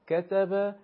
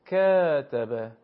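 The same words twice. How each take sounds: First: کتب said short and crisp; short vowel demo. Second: کتب with vowels drawn very slowly and loud; long vowel demo. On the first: (کتب با صداهای کوتاه) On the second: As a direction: stretch each vowel in کتب. (کتب با کشش بسیار زیاد) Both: Shown as a demonstration. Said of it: "فقط از حیث میزان ... کشش".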